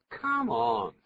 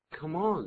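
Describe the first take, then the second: First: Scornful come on. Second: Said in the usual way. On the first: Shown as a demonstration. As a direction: Come on with a louder, drawn-out stress on come, like "get out of here". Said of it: "这意思完全不一样了啊". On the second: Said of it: "如果是念成".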